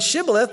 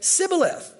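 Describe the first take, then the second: First: The word begins with an sh sound. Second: The word begins with a plain s sound. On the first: "rather than Shibboleth" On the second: "they would say Sibboleth. the Ephraimites couldn't pronounce the SH sound"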